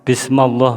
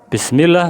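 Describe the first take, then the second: First: The vowel after m is an a sound. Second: Both vowels before ll are i sounds. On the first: A vowel mark has been changed. The speaker calls it wrong. "merubah harokat" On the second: The vowel marks are read as written. The speaker calls it right. "yang seharusnya Bismillah"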